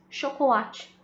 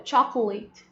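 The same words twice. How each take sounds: First: Chocolate said the Portuguese way, ending in -chee. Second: Chocolate said the English way, ending in -let; chocolate with an English vowel and no final vowel. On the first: Teacher shows chocolate the Portuguese way. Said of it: "Só a pronúncia que muda". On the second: Teacher shows chocolate the English way. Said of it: "Ele escreve igualzinho ao português". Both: Shown as a demonstration.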